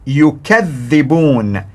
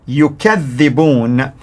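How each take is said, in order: The two takes are said the same way.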